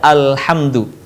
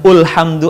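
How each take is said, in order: First: The word begins with an a vowel. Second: The word begins with an u vowel. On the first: The speaker calls it right. "tapi dibaca alhamdu" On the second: The speaker calls it wrong. "bukan ulhamdu"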